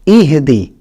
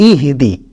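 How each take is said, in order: The two takes are said the same way.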